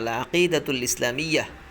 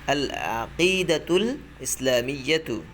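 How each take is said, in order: First: The last word ends with a soft 'h' sound. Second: The last word ends with a full 'tu' syllable.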